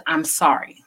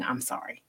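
First: Said in the usual way. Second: "I'm sorry" breathed out in a whisper, much softer; whispered reluctant apology. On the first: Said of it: "the words "I'm sorry" mean so much". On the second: Shown as a demonstration. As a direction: barely get "I'm sorry" out, as if it's hard to say. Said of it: "have a really hard time saying".

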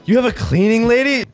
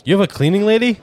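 First: Much higher, emphatic disbelief on "cleaning"; incredulous repeat. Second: Surprised question. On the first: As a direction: ask it in high-pitched astonishment. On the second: Incredulous question, first take. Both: Real, not acted.

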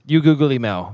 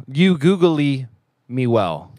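First: A light Zoolander line; lightly voiced Zoolander mangling words; Zoolander quote. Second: Zoolander quote. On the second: Retold or imitated. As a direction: stretch it out like a dim male model. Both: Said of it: "Shout out to Zoolander right there".

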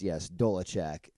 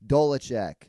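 First: Dolacek said slowly, with an A in the middle; Dolacek, slow careful demo; pronounced Dolacek. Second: Dolacek said out louder with a falling end; Dolacek announced. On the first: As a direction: say Dolacek deliberately, stress on the first syllable. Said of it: "it's pronounced". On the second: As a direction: proclaim Dolacek. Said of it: "So Dolacek". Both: Shown as a demonstration.

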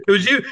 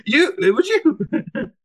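First: Said in the usual way. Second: Much higher, slow mock accusation; high mock accusing. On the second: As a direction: stretch it out high, teasing. Repeating the accusing quote, hammed.

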